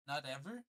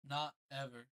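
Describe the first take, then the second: First: "Not ever?" with a rising, louder ever; surprised question. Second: "Not ever," falling, stress on not; flat answer. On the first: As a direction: Frog can't believe it. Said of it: "asked Frog". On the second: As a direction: Toad confirms it glumly. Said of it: "said Toad". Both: A narrator's reading.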